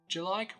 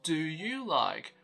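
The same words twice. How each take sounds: First: The word do shrinks to a d sound. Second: The word do keeps its full vowel. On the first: The speaker calls it right. "we first reduce the do to d" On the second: The speaker calls it wrong. "it's not do you like"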